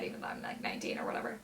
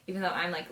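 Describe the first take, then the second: First: Breathy secret aside, barely voiced; whisper. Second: Said in the usual way. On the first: Real, not acted. Vlogger confessing her age to viewers, whispered.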